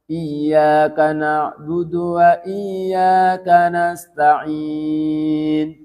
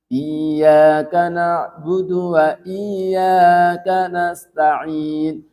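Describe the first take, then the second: The two takes are said the same way.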